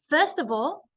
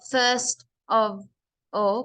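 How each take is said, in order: First: The three words run together without any pauses. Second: The words are separated by pauses between them. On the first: The speaker calls it right. "you really have to read it together and not stop" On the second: The speaker calls it wrong. "it sounds like you're putting many commas"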